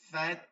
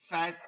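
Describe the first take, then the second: No difference in how they are said.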